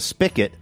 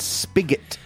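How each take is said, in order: First: The middle consonant is not a hard g. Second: The middle consonant is a hard g. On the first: The speaker calls it wrong. "I grew up calling it a spigot" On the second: The speaker calls it right. "It's a G. It's spigot"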